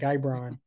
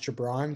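First: The first syllable has a 'guy' sound. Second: The first syllable has a short 'gih' sound. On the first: This is how strangers wrongly said the name. The speaker calls it wrong. "or it's like Guybron. And I'm like, no" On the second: This is how the name is really said. The speaker calls it right. "they didn't know my name was pronounced Gibran"

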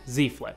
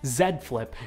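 First: The letter Z is said the American way. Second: The letter Z is said the non-American way. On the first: "or if you're American" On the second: "if you're part of the majority of the English world"

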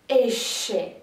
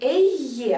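First: The middle consonant is an 'sh' sound. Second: The middle consonant is a 'y' sound. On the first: This is how it is said in Argentina. "а Эше. То есть вместо Е мы говорим Ш" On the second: This is the usual pronunciation outside Argentina. "не Эйе"

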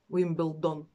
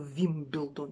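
First: The name begins with a W-like sound. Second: The name begins with a V sound.

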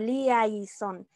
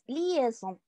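First: The 'ai' is said as two separate vowels. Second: The 'ai' is said as a single e sound. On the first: The speaker calls it wrong. "no suena como liaison" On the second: The speaker calls it right. "es liaison"

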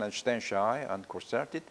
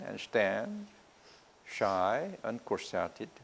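First: The lines run together without pauses between them. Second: There are clear pauses between the lines. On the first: It reads as plain prose. The speaker calls it wrong. "In one sentence, it doesn't make sense" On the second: It comes alive as a poem. The speaker calls it right. "if you give pauses between lines, it comes out live"

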